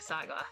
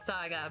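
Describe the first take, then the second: First: The word is said with a Korean accent. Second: The word is said with an American accent. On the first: "but actually pronouncing it" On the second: "if I'm using the American accent"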